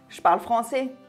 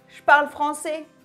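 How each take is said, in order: First: It is fastest, with two E sounds dropped. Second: It is fastest, with two E sounds dropped.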